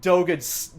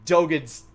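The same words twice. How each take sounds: The two takes are said the same way.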